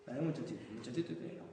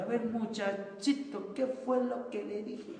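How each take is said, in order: First: Said in the usual way. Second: Higher, slow, mock-stern telling-off; a hammed-up cross teacher looming over a kid; scolding teacher. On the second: Teacher mocking how not to scold a child, slow and stern.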